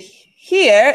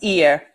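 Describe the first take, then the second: First: The word begins with an audible h sound. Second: The word begins with a vowel, no h. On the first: "when we do the here" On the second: "it kind of becomes ear"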